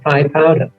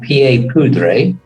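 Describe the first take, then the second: First: It is said with an English pronunciation. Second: It is said with a French pronunciation. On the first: "was a bit too much for the English tongue, so they became known as" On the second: "the French pronunciation"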